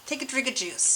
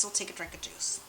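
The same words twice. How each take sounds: First: Said in the usual way. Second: Hushed whispered aside to herself; soft voiceless whisper. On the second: Shown as a demonstration. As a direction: breathe it out as a secret. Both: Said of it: "repeats line, second time whispered".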